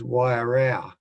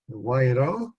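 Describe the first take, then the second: First: The last syllable sounds like a quarrel. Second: The last syllable sounds like rowing a boat. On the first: The speaker calls it wrong. "often I hear, hear that pronounced as" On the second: The speaker calls it right. "people do row their boats on it"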